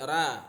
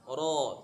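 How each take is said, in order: First: The r is light, with a thin open vowel. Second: The r is heavy, with a rounded dark vowel. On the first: The speaker calls it wrong. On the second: The speaker calls it right.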